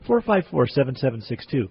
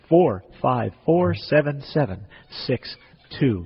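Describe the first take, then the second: First: The number is said at normal, quicker pace. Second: The number is said slowly and deliberately.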